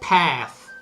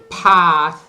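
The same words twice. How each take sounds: First: It is said with an American vowel. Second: It is said with a British open A. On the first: "in America they say path" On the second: "in England they say path with a real A like in Italian gatto"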